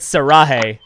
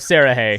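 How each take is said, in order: First: The stress falls on the middle syllable. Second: The stress does not fall on the middle syllable. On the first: The speaker calls it wrong. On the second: The speaker calls it right.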